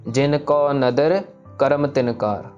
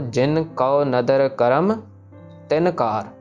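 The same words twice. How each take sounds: First: The pause comes after the word nadar. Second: The pause comes after the word karam. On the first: The speaker calls it wrong. "Mostly हम ऐसे ही पढ़ते हैं ... ऐसे नहीं पढ़ना इसको, विश्राम नदर पे नहीं है" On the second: The speaker calls it right. "विश्राम है करम पे"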